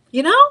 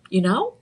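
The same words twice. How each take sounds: First: Emphatic you know. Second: Said in the usual way. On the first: Real, not acted. Repeated you know, pushed up.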